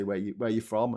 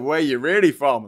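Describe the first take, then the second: First: Said in the usual way. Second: Insistent, much louder push on REALLY; stress on REALLY. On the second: Retold or imitated. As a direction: press hard on the word REALLY, disbelieving. Repeated question, insisting on really.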